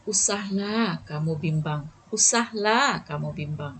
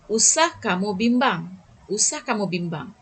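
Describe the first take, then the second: First: Soft soothing. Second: Firm usah kamu bimbang; firm reassurance. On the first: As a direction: soothe a worried friend with usahlah kamu bimbang. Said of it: "lebih lembut dan melembutkan hati". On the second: Teacher demonstrating a firm prohibition to pupils. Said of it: "masih nada yang tegas". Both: Shown as a demonstration.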